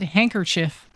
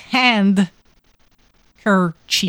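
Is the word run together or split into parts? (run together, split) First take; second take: run together; split. First: The word is run together as one unit. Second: The word is split into two clear parts. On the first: "we pronounce it handkerchief" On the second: "there's actually it's hand kerchief"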